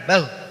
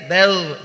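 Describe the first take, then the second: First: The final sound is cut off abruptly. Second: The final sound is held and flows on. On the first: The speaker calls it wrong. "jangan bal, jangan dipotong" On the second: The speaker calls it right. "Perhatikan dialirkan ya"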